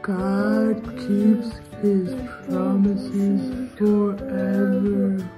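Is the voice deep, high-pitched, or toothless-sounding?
deep. It is said in a very low, deep voice.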